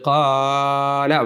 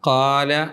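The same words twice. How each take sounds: First: The long vowel is stretched out too long. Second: The long vowel is held only briefly. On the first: The speaker calls it wrong. "വേണ്ട" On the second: The speaker calls it right. "എന്നു മതി"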